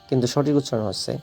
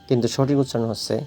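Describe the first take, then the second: No difference in how they are said.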